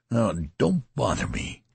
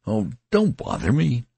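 First: Desperate menace. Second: Exasperated cry. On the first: Acted. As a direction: warn him off, desperate and menacing. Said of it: "he repeated with desperate menace". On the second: A narrator's reading. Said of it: "gave a cry of exasperation".

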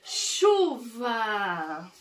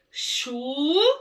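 First: "Chuva" joined up, stretched, falling at the end; sílabas juntadas. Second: "Chuva" as long chu, pause, va; sílaba por sílaba. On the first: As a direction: say "Chuva" as one drawn-out word. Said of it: "eu juntei e formei uma palavra". ("Chuva" inteira, sem pausa, alongada) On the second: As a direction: stretch and separate both syllables of "Chuva". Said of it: "vamos ler juntos". ("Chuva" silabado, cada sílaba esticada) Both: Shown as a demonstration.

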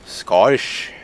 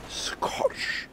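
First: Attempted Scottish accent on the word; voiced Scottish-accent attempt, rising at the end. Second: Whispered Scottish-accent attempt; soft, voiceless mock Scottish accent. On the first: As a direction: say Scottish with a put-on Scottish burr. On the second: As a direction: hush Scottish in a put-on Scottish accent. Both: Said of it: "Just doesn't seem quite right".

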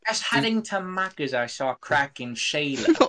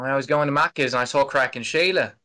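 First: Bad Australian impression. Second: 1 second try at Australian. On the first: American podcaster fakes an Australian accent, sounding British. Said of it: "That impression's so bad". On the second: Pretend. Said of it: "Does that sound a little better?".

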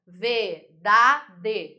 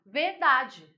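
First: "Verdade" in three separate, emphatic beats; syllable by syllable. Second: Said in the usual way. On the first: Shown as a demonstration. Teacher showing the class three sound segments, "Verdade" syllable by syllable. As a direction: break "Verdade" into ver, da, de with gaps. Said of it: "pronúncia em três segmentos sonoros". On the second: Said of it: "vamos separar a palavra verdade".

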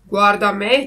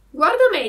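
First: Loud, firm fox voice at usual pitch. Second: High, loud cat voice. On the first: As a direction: hold yourself up loudly as the example. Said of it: "disse la volpe". (volpe che parla forte) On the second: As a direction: echo the fox in a much higher pitch. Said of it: "disse il gatto". (voce acuta da gatto) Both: A narrator's reading.

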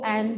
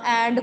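First: "and" said as "an", no final d; "and" with ending dropped. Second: Said in the usual way. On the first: Shown as a demonstration. Teacher showing Irish speech, "and" with the d dropped. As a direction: swallow the last sound of "and". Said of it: "वो word खा जाती है last वाले". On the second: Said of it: "and को and बोल रही है".

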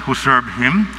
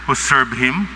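The two takes are said the same way.

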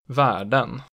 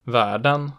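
First: Världen peaking at once, dropping sharply, rising late; type two B accent two. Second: Världen falling on the first syllable, rising on the second; type two B accent one. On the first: Teacher showing regional tones, världen with double-peak accent two. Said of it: "it immediately peaks and then drops sharply". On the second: Teacher showing regional tones, Världen with falling-rising accent one. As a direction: dip Världen, then peak on the ending. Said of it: "falls in the stressed syllable and then rises". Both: Shown as a demonstration.

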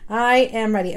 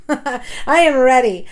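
First: Said in the usual way. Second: Laughing it out, a bit louder. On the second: Real, not acted. Vlogger to her viewers, laughing with relief.

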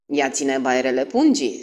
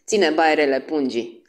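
First: Solemn, understated pronouncement; measured and serious; grave tone. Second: Lightly voiced chuckling repeat; mildly tickled delivery; amused old man. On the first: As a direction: state it gravely. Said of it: "spuse Poirot pe un ton grav". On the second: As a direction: savour the joke as an old man. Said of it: "chicoti bătrânul". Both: A narrator's reading.

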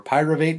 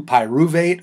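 First: Pyruvate said PIE-ruh-vate; alternate pronunciation. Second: Pyruvate said pie-ROO-vate; alternate pronunciation. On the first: Teacher offering the other way to say pyruvate, PIE-ruh-vate. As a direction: say pyruvate with a reduced "ruh" in the middle. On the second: Teacher showing students one way to say pyruvate, pie-ROO-vate. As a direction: say pyruvate with a clear "roo" in the middle. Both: Shown as a demonstration. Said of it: "depending on how you say it".

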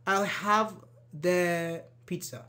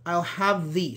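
First: "the" as "thuh", slow, pause before pizza; slow "have thuh... pizza"; short "the" while hesitating. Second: "the" as "thee", left unfinished; "I'll have thee", waiting to decide; "thee" when thinking. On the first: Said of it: "You don't say". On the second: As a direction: say THE with an ee sound and stop. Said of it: "you can use the instead". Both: Shown as a demonstration.

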